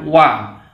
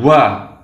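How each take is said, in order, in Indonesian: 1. Bunyinya bersuara penuh tanpa hembusan napas. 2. Bunyinya diucapkan dengan hembusan napas yang terdengar. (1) "sifatnya jahar, jelas. Jadi ini yang benar membacanya" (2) "ada yang membaca dengan hembusan angin atau hamas"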